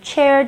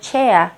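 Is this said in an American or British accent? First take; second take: American; British. First: It is said in an American accent. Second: It is said in a British accent. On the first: "미국 발음은 좀 많이 굴러가죠. R 발음을 정확하게 하지만" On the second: "영국 발음은 chair 대신에 chair 이런 소리로"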